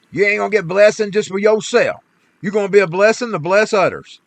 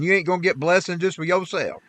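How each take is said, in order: First: Louder, driving the point home; repeating the lesson with raised voice; preaching emphasis. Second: Said in the usual way. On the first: Real, not acted. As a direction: preach it to the congregation. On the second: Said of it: "preaching repetition".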